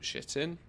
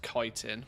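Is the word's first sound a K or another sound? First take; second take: another sound; K. First: The word begins with a sound other than K. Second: The word begins with a K sound. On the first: The speaker calls it wrong. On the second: The speaker calls it right.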